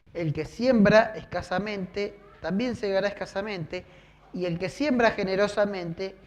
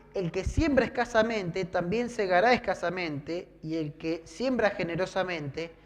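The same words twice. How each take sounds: No difference in how they are said.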